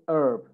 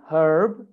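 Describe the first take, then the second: First: "herb" as URB; American, silent H. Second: "herb" with H and R both sounded; American pronunciation. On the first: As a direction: drop the H in "herb", keep the R. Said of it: "sometimes they say". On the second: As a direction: say "herb" as HURB. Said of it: "In American accent". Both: Shown as a demonstration.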